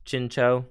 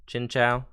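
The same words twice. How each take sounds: First: Chinchou with the ending like "cho", long o; alternative pronunciation. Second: Said in the usual way. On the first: Shown as a demonstration. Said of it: "You call it Chinchou or Chinchou?". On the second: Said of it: "I always call it Chinchou".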